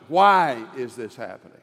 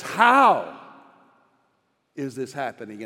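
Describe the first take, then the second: First: "Why" leaned on, falling tune, the rest lower; stress on why. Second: "How" set apart from the question that follows; stress on how. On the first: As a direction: hit "Why" and let "is this happening" drop. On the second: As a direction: hang on "How", pause, then drop the rest. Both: Shown as a demonstration. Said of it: "And there's a difference".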